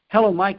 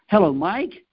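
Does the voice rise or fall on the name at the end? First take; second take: fall; rise. First: The voice falls on the name like a statement. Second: The voice rises on the name like a question. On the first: The caller greets someone already known. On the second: The caller seeks confirmation of who answered.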